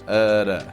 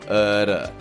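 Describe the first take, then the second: Both takes have the same delivery.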